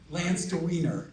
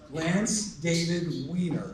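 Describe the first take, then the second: First: The name is said quickly with the middle squashed. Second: The name is said slowly with every syllable clear.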